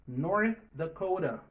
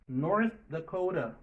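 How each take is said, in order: No difference in how they are said.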